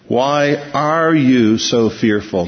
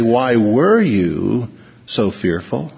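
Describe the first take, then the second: First: ARE drawn out slowly in "why are you"; stress on present tense. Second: WERE drawn out slowly, then a pause before "so fearful"; stress on past tense. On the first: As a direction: lean long and hard on the word "are". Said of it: "It's in the present tense". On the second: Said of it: "He doesn't say". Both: Shown as a demonstration.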